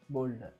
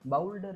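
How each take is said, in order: First: The first vowel sounds like 'oh'. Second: The first vowel sounds like 'ow'. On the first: The speaker calls it right. "बोल्डर बोल्डर" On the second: The speaker calls it wrong. "बाउल्डर नाही"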